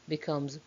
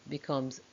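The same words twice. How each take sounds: The two takes are said the same way.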